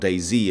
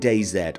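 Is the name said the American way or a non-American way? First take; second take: American; non-American. First: The name is said in an American way. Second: The name is said in a non-American way.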